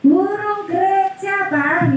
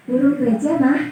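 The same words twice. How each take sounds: First: Higher, drawn-out answer to a repeated question; changed, raised tone. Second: Lightly voiced contented child's reply; happy child answering. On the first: Acted. Child answers father's repeated bird question, tone raised. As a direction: raise the pitch as a child losing patience with Dad. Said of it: "nadanya udah berubah". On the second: Child answers father's first question about a bird, lightly happy. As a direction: answer Dad easily, only lightly acted. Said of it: "anaknya dengan senang".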